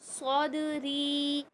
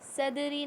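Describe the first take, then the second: First: The first 's' is heavy and full. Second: The first 's' is light and thin. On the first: The speaker calls it right. "बल्कि सौदरी" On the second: The speaker calls it wrong. "स्वाद को सीन की तरह नहीं पढ़ना है, सदरी नहीं"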